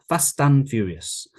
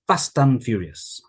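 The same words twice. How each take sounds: No difference in how they are said.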